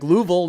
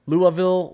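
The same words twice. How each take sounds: First: Loud, high Louisville as LOO-vul; rejected local pronunciation. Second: Loud, high Louisville in three syllables, LOO-uh-vill; corrected pronunciation. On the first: Streamer rejecting the Kentucky way, rejected local pronunciation. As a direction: punch out Louisville in two syllables. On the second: Streamer correcting the local version, corrected pronunciation. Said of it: "Louisville is more like Louisville". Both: Shown as a demonstration.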